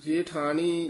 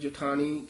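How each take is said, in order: First: The first vowel is a long 'e' sound. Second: The first vowel is a short, quick 'i' sound. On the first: The speaker calls it wrong. "ਜੇਠਾਣੀ ਲਾਂ ਦੇ ਨਾਲ ਨਹੀਂ ਉਚਾਰਨ ਕਰਨਾ" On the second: The speaker calls it right. "ਸਿਹਾਰੀ ਨਾਲ ਜਠਾਣੀ ਛੇਤੀ ਬੋਲਣਾ ਹੈ"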